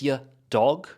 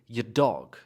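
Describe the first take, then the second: First: There is a pause between the two words. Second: The two words run together without a pause. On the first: The speaker calls it wrong. "you don't want to pause between" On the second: The speaker calls it right. "connect it to the next word as if it's one word"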